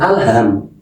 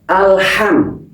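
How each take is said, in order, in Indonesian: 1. Bunyi h-nya polos dan ringan. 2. Bunyi h-nya kuat dan dari tenggorokan.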